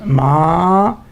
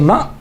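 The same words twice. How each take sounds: First: The word ends with a long open vowel. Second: The word ends with a short vowel and glottal stop. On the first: "a long uh, fatha" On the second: "It's a glottal stop. It is a hamza"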